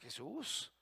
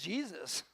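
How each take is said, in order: First: The name has a Spanish pronunciation. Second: The name has an English pronunciation. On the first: "somos mexicanos, aquí decimos Jesús" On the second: "y en inglés Jesus"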